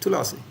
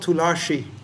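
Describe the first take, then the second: First: The middle consonant is a plain s sound. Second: The middle consonant is an sh sound. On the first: The speaker calls it right. "it should be tulasi" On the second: The speaker calls it wrong. "not tulashi"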